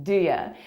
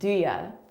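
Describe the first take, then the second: First: The words are reduced and blended into 'do ya'. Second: The words are reduced and blended into 'do ya'.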